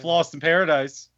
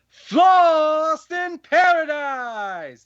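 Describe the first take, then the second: First: It is said in a normal speaking pitch. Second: It is said loudly in a high squeal. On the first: The speaker calls it wrong. "I didn't say it right" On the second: The speaker calls it right. "That's the right way of saying it"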